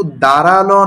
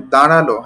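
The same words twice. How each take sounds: First: দাঁড়ালো with a purely oral first vowel; without nasalisation. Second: দাঁড়ালো with the first vowel through the nose; nasalised vowel. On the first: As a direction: say দাঁড়ালো as "daralo", nothing through the nose. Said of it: "নাক থেকে আসবে দাঁড়ালো". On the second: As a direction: say দাঁড়ালো as "dãralo". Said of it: "নাক থেকে আসবে". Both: Shown as a demonstration.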